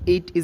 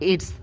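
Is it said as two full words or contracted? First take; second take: full; contracted. First: Both words are said in full. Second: The words are contracted into one syllable. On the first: The speaker calls it wrong. "ইট ইজ না বলে" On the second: The speaker calls it right. "বলবেন ইটস"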